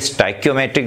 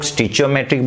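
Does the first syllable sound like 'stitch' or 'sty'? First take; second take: sty; stitch. First: The first syllable sounds like 'sty'. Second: The first syllable sounds like 'stitch'. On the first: "कई स्टाइक्योमेट्रिक बोलते हैं" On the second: "कई लोग स्टिचियोमेट्रिक बोलते हैं"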